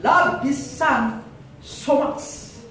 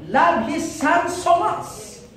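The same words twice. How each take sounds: First: Slow, weighty "Love His Son", then "so much" whispered; slow stress on "Love" that fades to a breathy "so much"; slow emphatic repeat. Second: High and slow, stretching "love"; emphatic preaching. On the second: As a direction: lean on "love His Son so much", drawn out high. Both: Shown as a demonstration. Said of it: "Okay, makinig".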